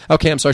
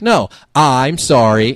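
First: Quick, perfunctory sorry; insincere apology. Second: Slow, drawn-out mock apology demand; demanding correction. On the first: Retold or imitated. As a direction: toss off an apology you don't mean. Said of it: "fully didn't mean it". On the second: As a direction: stretch it out, making them repeat after you. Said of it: "She's like".

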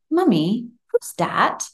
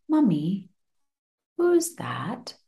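First: Put-on a little boy's high, curious question; small child asking. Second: Put-on toddler whispering, higher; eerie child whisper; whispered child question. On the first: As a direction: ask it like a toddler peering into the dark. Mum voices her small son. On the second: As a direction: breathe it like a child in the dark. Son asks in the dark.

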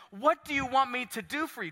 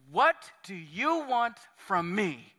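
First: Said in the usual way. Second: "What do you want from me?" said slowly, leaning on "What"; slowed down. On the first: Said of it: "I want to just slow down here". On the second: Shown as a demonstration. Pastor hitting pause on Jesus' question, slow deliberate "What do you want from me?". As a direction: drag each word of "What do you want from me?" out. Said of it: "I want to just slow down here for a second".

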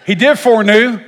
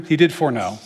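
First: "foreknew" blurted much higher and louder; hammed-up frustration at tripping over "foreknew"; exasperated slip. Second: "foreknow" said carefully, ending in "know"; catching the slip, says "foreknow" properly; corrected foreknow. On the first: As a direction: throw out "foreknew" in mock exasperation. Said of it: "Gall darn it". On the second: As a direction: land "foreknow" as the right word. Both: Shown as a demonstration.

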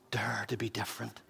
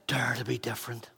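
First: Softer, low-voiced urging; quiet urging. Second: Whispered, breathless challenge; whispered urging. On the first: Pastor urging young people, quiet and intense. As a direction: pull them in with a soft plea. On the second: Acted. Pastor repeating his challenge to young people, whispered. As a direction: whisper it like a secret call.

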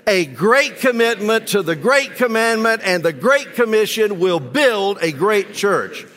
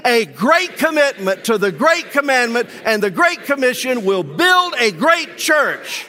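First: Recited together, somewhat raised but holding back; anemic group recital. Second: With all your heart. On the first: Congregation reciting the church motto, a bit half-hearted. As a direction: say the motto without much conviction. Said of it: "That's kind of anemic". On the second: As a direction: proclaim it like you really mean it. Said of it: "Say it with all of your heart". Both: Real, not acted.

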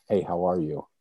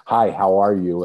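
First: Mean every word of the hello; caring greeting. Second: An offhand, louder passing hello; automatic salutation. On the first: Greeting a stranger on the street with real care. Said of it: "I really cared". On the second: Everyday greeting nobody waits to hear answered. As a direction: toss off the greeting by habit. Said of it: "I'm not saying it as a salutation". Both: Shown as a demonstration.

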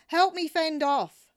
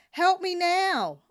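First: Loud high shout, HELP hit hardest. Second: Slow, very loud high bellow, HELP hit hard. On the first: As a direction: yell for help across the boats. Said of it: "I shouted". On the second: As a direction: bellow it like a final warning. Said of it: "I bellowed". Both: Retold or imitated.

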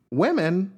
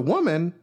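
First: Women as "WIH-min", higher; corrected plural. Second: Women said as "WUH-mun"; singular vowel. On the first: Host correcting the slip in a quote, women as high WIH-min. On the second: Host misspeaking a retold quote, women sounded as WUH-mun. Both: Retold or imitated.

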